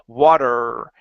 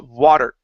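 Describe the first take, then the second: First: The final er sound is pushed and held long. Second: The final er sound is stopped quickly. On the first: The speaker calls it wrong. "instead of saying water and really er pushing in on that" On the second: The speaker calls it right. "it's water. Okay, stop it quicker"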